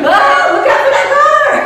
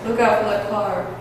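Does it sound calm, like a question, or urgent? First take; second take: urgent; calm. First: It is shouted urgently as an alarmed warning. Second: It is said calmly, with no urgency.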